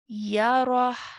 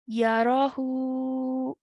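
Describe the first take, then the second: First: The word ends on a consonant without vowel. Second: The word ends on a stretched vowel sound. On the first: The reader stops at this word. "if you want to take a pause and stop after this... now the word will be recited as Yarah" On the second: The reader continues without stopping. "without stopping, without pausing, in continuation, will be read as Yarahu"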